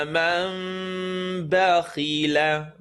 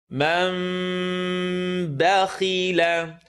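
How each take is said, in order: No difference in how they are said.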